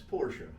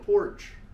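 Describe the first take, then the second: First: The name ends with a final vowel sound. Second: The name ends with no final vowel sound. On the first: This is how Germans say the name. "if you're German, it's Porsche" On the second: This is how people from a small place in Pennsylvania say the name. "they call it a porch"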